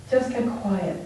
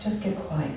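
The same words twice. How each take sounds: First: Soft, a little fuller than the first; calm inner reminder, hushed; quiet self-talk. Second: Hushed, telling herself to settle; nearly under her breath, much softer; soft inner voice calming herself; quiet self-talk. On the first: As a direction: repeat it gently to yourself, softer. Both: Retold or imitated. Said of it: "Okay, Deb".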